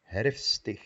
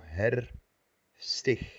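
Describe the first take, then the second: First: Said in the usual way. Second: Herfstig broken slowly as herfst, ig; wrong split. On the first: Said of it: "no existe". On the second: Shown as a demonstration. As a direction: show the wrong break in herfstig. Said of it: "No como".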